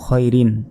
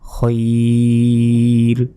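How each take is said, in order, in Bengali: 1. শব্দটি পূর্ণ -in প্রত্যয় দিয়ে শেষ হয়। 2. শব্দটি খালি শেষ ব্যঞ্জনে থামে।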